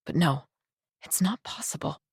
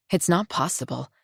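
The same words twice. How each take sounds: First: Much softer, hushed denial; quiet denial. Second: Said in the usual way. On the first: Acted. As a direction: breathe it out softly to yourself. Inner denial, said softly.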